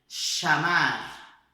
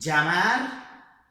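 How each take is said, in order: First: It begins with a sh sound. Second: It begins with a dj sound. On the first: This is how it is said in Argentina. "A Argentina é som de C H do português" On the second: This is how other countries say it. "É como se fosse um D com um J misturado"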